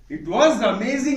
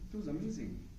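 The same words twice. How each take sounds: First: It is said in an excited tone. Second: It is said in a flat, unexcited tone.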